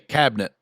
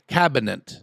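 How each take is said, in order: First: The middle vowel is dropped or reduced. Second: The middle vowel is clearly pronounced. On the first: This is how most people say it. "We just say cabinet" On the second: This is how the mother-in-law says it. "The I"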